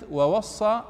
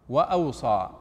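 First: "ووصى" as wa-was-saa, raised and firm; doubled-s reading. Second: "وأوصى" as wa-aw-saa, lower and falling; reading with alif. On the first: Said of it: "لو أردنا أن نكتب كلمة". («ووصى» بصاد مشددة) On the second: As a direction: say "وأوصى" with aw and a single s. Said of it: "لأن سيكون فيها ألف". («وأوصى» بهمزة وصاد مخففة) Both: Shown as a demonstration.

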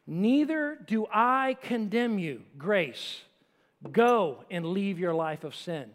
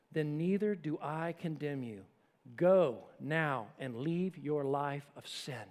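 First: Slow, stressing "Neither" and "Go"; firm, slow stress on "Neither" and "Go"; emphatic restatement. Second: Soft, slow and gentle; a lightly voiced compassionate Jesus. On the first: Shown as a demonstration. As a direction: lay weight on "Neither" and "Go". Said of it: "grace. ... Truth". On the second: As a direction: speak it with quiet compassion. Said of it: "speaks to her so compassionately".

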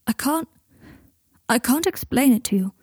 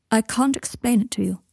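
First: Higher, mildly strained and halting. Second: Evenly, with mild restraint. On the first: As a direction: struggle to get it out. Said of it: "his voice more strained this time". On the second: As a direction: keep it measured and controlled. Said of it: "said Malfoy evenly". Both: A narrator's reading.

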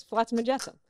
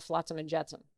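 First: "Flotsam and Jetsam" pitched up and louder; emphatic repeat. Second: Said in the usual way. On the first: Retold or imitated. Repeats cat names after her disbelief.

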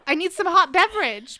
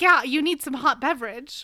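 First: Lightly voiced friend, a bit higher and louder; mock her odd little catchphrase; imitating Amanda's phrase. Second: Light teasing imitation of a friend; imitating Amanda. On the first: Friend imitates Amanda asking for hot beverage, mock voice. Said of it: "That is how she said it". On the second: Friend teasing Amanda about her catchphrase, light imitation. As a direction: echo her catchphrase playfully. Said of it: "she's like".

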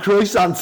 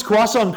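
First: Croissant as English "kroy-sant", t sounded; anglicised pronunciation. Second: Croissant as French "kwa-son", silent t; French pronunciation. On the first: Retold or imitated. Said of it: "so I just call them croissants". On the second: Shown as a demonstration. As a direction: say croissant the French way, nasal ending. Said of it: "say it the proper way".

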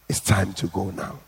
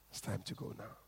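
First: Said in the usual way. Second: Fading. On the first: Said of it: "first take before fade". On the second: A narrator's reading. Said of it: "repeated with fade".

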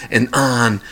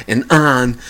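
The two takes are said the same way.

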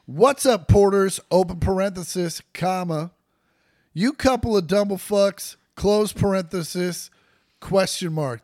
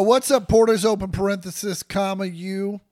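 First: Reading out the punctuation aloud; dictating. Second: Dictating. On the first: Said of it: "those were all words". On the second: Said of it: "It says". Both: Shown as a demonstration.

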